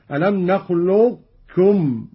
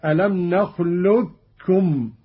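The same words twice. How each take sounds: First: "نخلقكم" keeping a heavy q before k, no bounce; slow recitation, "نخلقكم" as nakhluq-kum without echo; partial merging. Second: "نخلقكم" as "nakhlukkum", doubled k, no q; slow recitation, q wholly merged into k in "نخلقكم"; full merging. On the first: Teacher demonstrates incomplete assimilation, "نخلقكم" with heavy unreleased q. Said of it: "الإدغام الناقص مع إبقاء صفة". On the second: Teacher demonstrates complete assimilation, "نخلقكم" as nakhlukkum. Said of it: "الإدغام الكامل كاف مشددة". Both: Shown as a demonstration.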